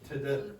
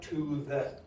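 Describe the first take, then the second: First: The word to is quick with a weak vowel. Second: The word to has a full, strong vowel. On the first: The speaker calls it right. "said very quickly and quietly" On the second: The speaker calls it wrong. "it's not to the"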